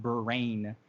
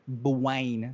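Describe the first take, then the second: First: The R is a full, clear R sound. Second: The R is soft, almost like a W. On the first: The speaker calls it wrong. "not brain" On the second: The speaker calls it right. "Almost like Bwine"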